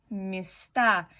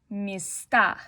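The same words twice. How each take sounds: The two takes are said the same way.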